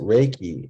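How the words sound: It is said with an English pronunciation. "we pronounce it Reiki in English"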